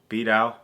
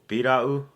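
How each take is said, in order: First: The word is said quickly, in a faster form. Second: The word is said at a careful, slower pace.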